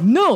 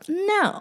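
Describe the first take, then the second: First: The no sounds firm and serious. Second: The no sounds light and playful. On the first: The refusal is meant seriously. "Not like no" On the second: The refusal is teasing and not meant seriously. "Very playful"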